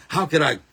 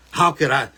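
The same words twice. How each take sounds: The two takes are said the same way.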